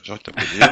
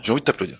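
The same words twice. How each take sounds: First: Repeated through a real laugh. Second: Said in the usual way. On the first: Real, not acted. Host laughs while telling guest he wants to applaud. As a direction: let the laugh break into the words.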